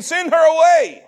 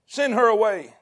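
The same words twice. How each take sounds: First: Raised, louder mock dismissal; high, forceful acted order; acted demand. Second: Said in the usual way. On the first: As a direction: call it out high and loud, imitating the disciples.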